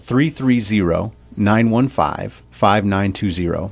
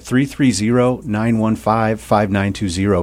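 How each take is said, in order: First: The number is said more slowly. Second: The number is said at a normal pace.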